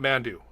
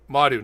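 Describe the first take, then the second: First: It is said with an n before the d. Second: It is said with no n before the d. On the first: The speaker calls it wrong. "not Mandu" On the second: The speaker calls it right. "Madu, not Mandu"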